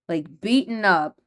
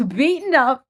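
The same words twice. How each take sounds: First: Said in the usual way. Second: Beaten up, laughed out louder; laughing repeat. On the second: Real, not acted. Host laughs uneasily while recapping the beating scene. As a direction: laugh through the words beaten up.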